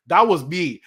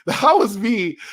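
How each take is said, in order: First: Said in the usual way. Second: Slower, higher, louder, laughing through it. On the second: Real, not acted. Streamer tells chat he was that fan, laughing, emphatic. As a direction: own it proudly with a laugh.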